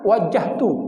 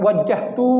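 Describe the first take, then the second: First: The final vowel is kept short. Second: The final vowel is held long. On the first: The speaker calls it right. "Kalau dipendekkan" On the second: The speaker calls it wrong.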